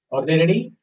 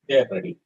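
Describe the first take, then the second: First: "Are they ready?" rising sharply on "ready"; question intonation. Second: "They are ready." low, falling on "ready"; statement intonation. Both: Shown as a demonstration. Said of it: "change the intonation a little bit".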